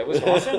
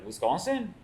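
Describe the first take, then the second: First: Louder, higher French chef: "Wisconsin?" rising; French chef louder disbelief. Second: Higher, puzzled French chef repeating Wisconsin?. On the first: French chef incredulous at the question, louder. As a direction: throw back "Wisconsin?" in French-accented disbelief. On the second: French chef baffled by a Wisconsin question, higher. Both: Retold or imitated. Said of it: "it's a French guy".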